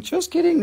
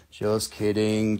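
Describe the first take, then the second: First: "Just kidding." jumped much higher; playful high-pitched "Just kidding."; high squeak. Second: Dropped low, drawn-out "Just kidding."; mock-serious low "Just kidding."; low and slow. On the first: Acted. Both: Repeat joke two ways.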